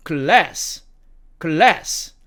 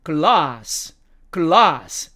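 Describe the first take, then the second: First: American "glass", front a as in "cat"; American demo of "glass"; American accent. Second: British "glass" with long ah; British demo of "glass"; British accent. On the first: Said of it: "미국식 발음으로는". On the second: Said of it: "영국식 발음으로는". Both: Shown as a demonstration.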